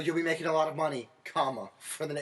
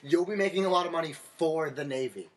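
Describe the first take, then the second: First: There is a break after 'money'. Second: It runs on without a break after 'money'.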